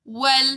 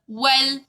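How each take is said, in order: Both takes have the same delivery.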